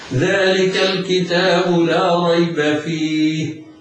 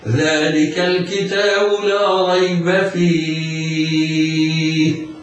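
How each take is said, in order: First: The final vowel is held for two counts. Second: The final vowel is held for six counts. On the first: "القصر بمقدار حركتين" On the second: "الطول ست حركات"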